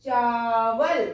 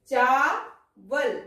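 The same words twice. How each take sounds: First: चावल drawn out slowly with a long आ; slow corrected reading. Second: चावल drawn out very slowly, long आ held; very slow reading. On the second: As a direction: sound out चावल once more, slowly. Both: Shown as a demonstration. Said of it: "हम यहाँ बनाएंगे इसको".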